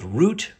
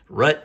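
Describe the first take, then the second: First: It is said in a standard accent. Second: It is said in an Idaho-style accent.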